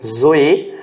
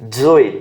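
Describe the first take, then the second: First: The word begins with a plain z sound. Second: The word begins with a dz sound. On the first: "você pode pronunciar isso aqui como Zoe" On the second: "Ou você pode pronunciar como dz, dz"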